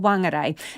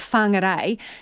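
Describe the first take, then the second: First: The word begins with a plain W sound. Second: The word begins with a breathy F-like sound.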